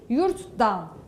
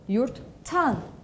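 First: The suffix begins with a voiced d sound. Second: The suffix begins with a voiceless t sound. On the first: The speaker calls it wrong. "Yurttan demiyorum" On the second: The speaker calls it right. "Yurttan diyorum"

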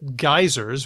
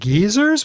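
First: The word is said the American way. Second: The word is said the British way. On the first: "what I say in my U.S. English" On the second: "Because it's a UK show, that's what she heard"

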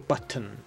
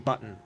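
First: The middle T sounds are clearly pronounced. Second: The middle T sounds are swallowed. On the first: "everybody enunciates every syllable" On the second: "where you swallow those two T's in the middle"

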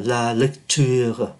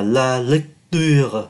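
First: The t in lecture leans toward a ch sound. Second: The t in lecture is a plain t sound. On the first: "nó hơi hơi đi về chữ chờ" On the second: "Thay vì đọc là la lecture thì cũng được"

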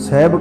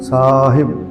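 First: The first vowel is short. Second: The first vowel is long. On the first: The speaker calls it wrong. "ਜ਼ਿਆਦਾ ਕਰਕੇ ਸਹਿਬ ਕਰਕੇ ਪੜ੍ਹਿਆ ਜਾਂਦਾ" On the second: The speaker calls it right. "ਪਰ ਨਹੀਂ ਸਾਹਿਬ ਸੱਸੇ ਨੂੰ ਕੰਨਾ"

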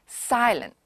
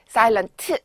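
First: The final T is soft and barely released. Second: The final T is strongly and clearly released. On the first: The speaker calls it right. "해야지" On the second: The speaker calls it wrong. "하지 않는다"

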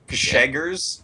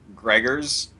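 First: The name has an SH sound after the G. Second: The name has an R sound after the G. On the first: The speaker calls it right. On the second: The speaker calls it wrong.

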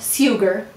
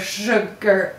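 First: The word begins with a plain 's' sound. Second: The word begins with an 'sh' sound. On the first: "Let's first read it, s-u-g-r" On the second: "Oh my, it turned into sugar. This assimilates into sh"

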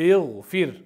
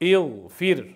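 Both takes have the same delivery.

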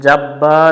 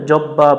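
First: The vowel is held for an extra beat. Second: The vowel is cut short without stretching. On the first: The speaker calls it right. "এক আলিফ টান দিয়ে পড়বো এখানে" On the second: The speaker calls it wrong. "অনেকজনে ভুল করে"

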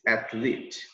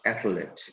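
First: The last syllable has a long E vowel. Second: The last syllable has a short vowel. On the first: The speaker calls it right. "You have the E sound, long E" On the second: The speaker calls it wrong. "So it's not athlete"

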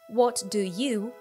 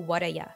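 First: Each word is said fully and separately. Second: The words are squeezed together into 'whaddaya'.

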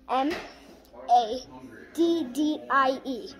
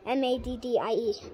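First: The letters are spelled out slowly. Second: The letters are spelled out fast.

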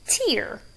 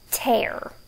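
First: The word rhymes with 'ear'. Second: The word rhymes with 'air'. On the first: It means a drop from the eye when crying. "Like when you're crying, you have a tear" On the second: It means to rip something. "But it can also be tear"

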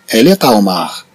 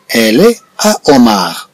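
First: The t of est is linked to à. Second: The words are said without a linking t sound.

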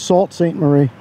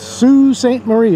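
First: The name is pronounced the way it is spelled. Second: The name is pronounced the way locals say it. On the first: This is how an outsider would guess it. The speaker calls it wrong. "I thought it was" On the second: This is how people there actually say it. The speaker calls it right. "is the way they pronounce it"

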